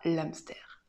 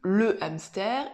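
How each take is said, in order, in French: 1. La voyelle de l'article tombe et se lie au mot suivant. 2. L'article garde sa voyelle, sans liaison. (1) "et non pas l'hamster" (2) "on dit le hamster"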